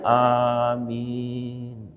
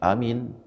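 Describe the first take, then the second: First: Both vowels in the word are drawn out long. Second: The vowels in the word are cut short. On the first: It means: answer our prayer, O God. The speaker calls it right. "A-nya panjang, mimnya panjang" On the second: The meaning of the word has changed. The speaker calls it wrong. "Panjang gelik, dipendek"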